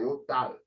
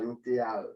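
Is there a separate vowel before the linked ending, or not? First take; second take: linked; separate. First: The T links straight into the ending. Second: The vowel after the T is pronounced separately. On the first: The speaker calls it right. "vai falar eu tal" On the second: The speaker calls it wrong. "o nativo sempre não vai falar eu teal"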